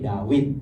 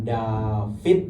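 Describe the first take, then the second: First: The middle consonant is a w sound. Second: The middle consonant is a v sound. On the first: This is the original Hebrew reading. The speaker calls it right. "tapi Dawid" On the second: This is the later reading influenced by Aramaic. The speaker calls it wrong. "Bukan David"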